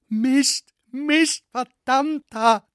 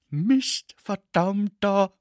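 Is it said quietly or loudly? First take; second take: loudly; quietly. First: It is said louder. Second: It is said at a normal, quieter volume.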